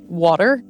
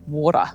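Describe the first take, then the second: First: It is said in the speaker's own accent. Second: It is said in a New Zealand accent.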